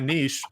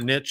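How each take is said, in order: First: It is said in a general, non-Oklahoma way. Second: It is said the way Oklahomans say it.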